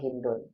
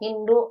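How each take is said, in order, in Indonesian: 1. Nama ini berakhir dengan bunyi n. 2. Nama ini berakhir dengan vokal, tanpa n di akhir. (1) "boleh tanwin" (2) "boleh enggak"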